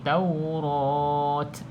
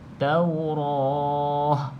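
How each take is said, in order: First: The word ends with a clear t sound. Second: The word ends with a soft h sound. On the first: The speaker calls it wrong. "Jangan bunyi Taurat" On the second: The speaker calls it right. "kalau berhenti bunyinya Taurah"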